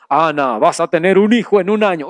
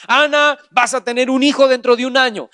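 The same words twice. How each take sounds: First: Much lower, fast divine voice; voice from heaven. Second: Said in the usual way. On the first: Acted. Preacher voicing a heavenly voice to Ana, much lower. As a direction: boom it low like a voice from above. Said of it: "Una voz se oyó y dijo". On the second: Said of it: "No bajó un ángel y le dijo a Ana".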